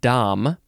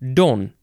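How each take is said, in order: First: The word ends with a clear M sound. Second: The word ends with a subtle nasal N sound. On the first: It is a title for some monks and canons regular. "number one is pronounced Dom" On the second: It is a title for a Portuguese or Brazilian man of rank. "it's just sort of like a subtle N sound"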